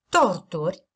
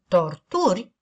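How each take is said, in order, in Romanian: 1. Accentul cade pe prima silabă. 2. Accentul cade pe a doua silabă. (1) "cu sensul de prăjituri" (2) "cu accentul pe a doua silabă când cuvântul are înțelesul de chinuri"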